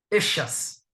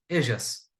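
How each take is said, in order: First: It is said in a Buenos Aires accent. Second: It is said in a Latin American accent. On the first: "se você for para Buenos Aires especificamente, você vai ouvir echas"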